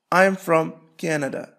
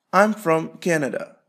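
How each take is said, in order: Both takes have the same delivery.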